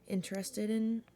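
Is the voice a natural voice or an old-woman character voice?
natural. It is read in a plain natural voice. The speaker calls it wrong.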